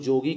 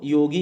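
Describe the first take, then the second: First: The word begins with a j sound. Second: The word begins with a y sound. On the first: "हम लोग जोगी कह देते हैं" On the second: "योगी है उसको"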